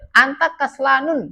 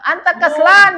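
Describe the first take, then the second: First: The last word ends with an added -un. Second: The last word ends in -an, without -un. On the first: The speaker calls it wrong. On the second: The speaker calls it right.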